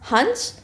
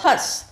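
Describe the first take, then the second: First: The vowel is followed by a full n sound. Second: The vowel itself is nasalized without an n. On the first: A bird. "हंस एक पक्षी है" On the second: The act of laughing. "हंस हंसने की क्रिया"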